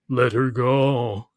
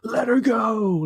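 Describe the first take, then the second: First: It is said flatly, without any emotion. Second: It is said with passion and desperation. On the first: The speaker calls it wrong. "You know how he says it?" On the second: The speaker calls it right. "with gravitas and passion and like desperation almost"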